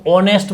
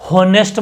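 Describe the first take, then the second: First: ऑनेस्ट with a silent h, opening on O; correct pronunciation. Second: हॉनेस्ट with a sounded h, the mistake; wrong pronunciation. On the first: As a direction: says ऑनेस्ट with no h. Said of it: "इसको आपको ऑनेस्ट बोलना है". (सही उच्चारण ऑनेस्ट, h silent) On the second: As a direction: says हॉनेस्ट with h. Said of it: "हॉनेस्ट बोलोगे तो गलत होगा". (ग़लत उच्चारण हॉनेस्ट, h के साथ) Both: Shown as a demonstration.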